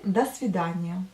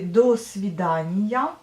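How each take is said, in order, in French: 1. Le premier mot se dit avec une voyelle 'a'. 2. Le premier mot se dit avec une voyelle 'o' pleine. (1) "mais vous prononcez до свидания" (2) "vous écrivez до свидания"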